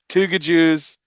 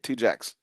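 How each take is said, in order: First: The name is said with three syllables. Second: The name is said with two syllables. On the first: The speaker calls it wrong. "we're just butchering the shit out of this" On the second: The speaker calls it right. "That's how you say it"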